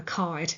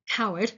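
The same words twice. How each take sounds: First: Said in the usual way. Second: Said in an English accent. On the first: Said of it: "Sorry, Northern Irish accent here". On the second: Shown as a demonstration. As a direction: put on an English pronunciation of "Coward". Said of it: "in my English accent".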